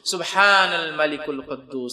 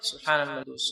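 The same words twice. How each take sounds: First: It is said loudly, with the last word drawn out. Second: It is said quietly.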